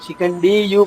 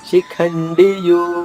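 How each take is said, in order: First: The 'di' syllable has a long vowel. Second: The 'di' syllable has a short vowel. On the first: The speaker calls it wrong. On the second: The speaker calls it right.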